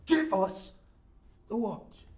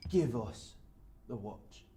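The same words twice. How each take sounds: First: Loud, high mugger's demand; sharp, raised-voice threat; forceful threat. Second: Measured mugger's order; contained threat. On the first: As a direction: bark the order with a knife out. Mugger repeats demand with knife. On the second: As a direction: demand it quietly, with menace. Mugger's first demand for watch. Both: Acted.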